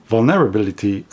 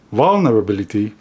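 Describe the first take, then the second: First: "Vulnerability" with a clear "NER" as second syllable, vul-NER-ability; trying stress placement. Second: "vulnerability" quicker, second syllable reduced, VUL-nuh-rability; trying another stress. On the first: Unsure where the focus goes, testing "Vulnerability" as vul-NER-ability. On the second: Unsure where the focus goes, retrying "vulnerability" quickly as VUL-nuh-rability. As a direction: try "vulnerability" fast as VUL-nuh-ra-bility. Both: Shown as a demonstration. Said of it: "I don't know where to put the".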